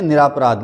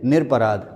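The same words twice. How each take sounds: First: निरापराध with long "raa" early; wrong form. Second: निरपराध with short "nir"; correct form. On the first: Teacher shows what students write, निरापराध with long "raa". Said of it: "जो कि गलत है". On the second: Teacher corrects students, निरपराध without the long "raa". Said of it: "सही है". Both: Shown as a demonstration.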